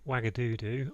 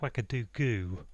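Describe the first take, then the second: First: The final syllable starts with a d sound. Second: The final syllable starts with a g sound. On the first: The speaker calls it wrong. "I think I'm saying it wrong" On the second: The speaker calls it right. "I think it's Wagadoogoo"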